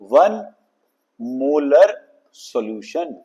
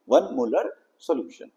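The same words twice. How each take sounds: First: One molar solution, said slowly and clearly; pronunciation demo. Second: "one molar solution" repeated softly and clearly; pronunciation demo. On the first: ("वन मोलर सॉल्यूशन" धीरे और साफ़ उच्चारण) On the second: ("वन मोलर सॉल्यूशन" धीमी आवाज़ में दोहराना) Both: Shown as a demonstration. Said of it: "This is the pronunciation".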